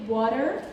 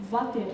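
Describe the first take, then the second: First: Said in the usual way. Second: "water" starting with a v; Indian V for W. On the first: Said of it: "when you say". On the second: Shown as a demonstration. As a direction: begin "water" with v, in an Indian accent. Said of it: "like V".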